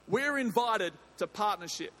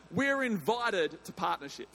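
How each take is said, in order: Both takes have the same delivery.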